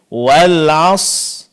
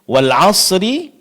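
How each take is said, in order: First: The final r is dropped entirely. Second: A vowel is sounded after the final r. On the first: "huruf ra-nya tidak diucapkan dengan jelas, bahkan ada yang tidak diucapkan sama sekali" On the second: "Kesalahan yang terjadi adalah sering kita mengabaikan huruf sukun yang kedua"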